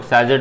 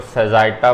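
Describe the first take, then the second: First: "सेजिट" said short, ending in -jit; two-syllable "सेजिट", no final aa; short variant pronunciation. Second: "सेजाइटा" with -jai- and final -taa; long variant pronunciation. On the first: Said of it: "कुछ लोग सेजिट बोलते हैं". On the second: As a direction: say "सेजाइटा" in three syllables, middle like "eye". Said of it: "कुछ लोग सेजाइटा बोलते हैं". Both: Shown as a demonstration.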